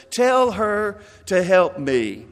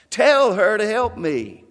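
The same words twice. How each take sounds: First: Slow, clipped-off commands; barking orders. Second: Raised, insistent command; loud demand. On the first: Martha to Jesus, slowly barking out orders. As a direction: bark it at him slowly. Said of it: "she's barking out orders". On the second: Martha to Jesus, a raised insistent demand. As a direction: order him to make her help. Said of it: "she's getting loud about now". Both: Acted.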